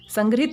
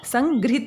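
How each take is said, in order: First: The middle syllable is pronounced 'grah'. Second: The middle syllable is pronounced 'grih'. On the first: The speaker calls it wrong. "ऐसे ही संग्रहित संग्रहित नहीं होता" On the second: The speaker calls it right. "संगृहित होता है"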